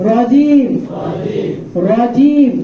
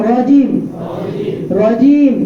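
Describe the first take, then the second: No difference in how they are said.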